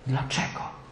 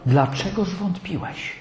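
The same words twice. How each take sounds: First: Breathy whisper of the question; whispered echo. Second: Softer and slow, a pained rebuke; soft sad question. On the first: Jesus repeating his question to Peter in a whisper. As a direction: drop it to a bare whisper. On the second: Jesus gently asking Peter why he doubted, soft and slow. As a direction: ask it quietly, almost grieving. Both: Acted.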